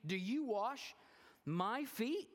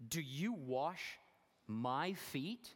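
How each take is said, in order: First: High, loud, disbelieving question; incredulous Peter. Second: Said in the usual way. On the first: Acted. Peter asking Jesus in disbelief, high and loud. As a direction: ask it in shocked disbelief. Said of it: "again, he started". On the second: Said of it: "And Peter said".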